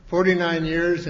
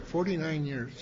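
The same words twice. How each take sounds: First: Forty-nine years punched louder and higher; emphatic repeat. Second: Forty-nine years said softly, almost to himself; soft aside. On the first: Speaker stressing the anniversary to the crowd, loud and proud. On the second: Speaker marvelling to the crowd at forty-nine years, softly. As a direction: let it drop away in quiet wonder. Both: Real, not acted.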